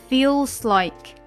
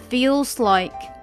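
Both takes have the same delivery.

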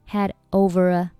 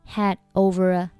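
Both takes have the same delivery.

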